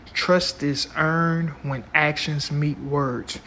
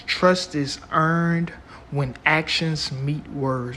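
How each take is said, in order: First: Slow, emphatic repeat; slow and deliberate. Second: Slow, weighty quote delivery; slow and deliberate. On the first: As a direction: lay each word down slowly. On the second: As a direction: spell it out slowly, word by word. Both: Shown as a demonstration. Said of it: "I'm gonna say that again".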